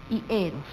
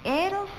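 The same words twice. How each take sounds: First: "y eros" dropped low with a falling close; "eros" answered low and falling; answering rhyme ending. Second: "Eros" pitched high with a rising tune; "Eros" sung out high and rising; stressed rhyme ending. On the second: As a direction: lift "Eros" up like a question to spotlight the rhyme. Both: Shown as a demonstration.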